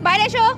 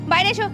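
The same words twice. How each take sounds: The two takes are said the same way.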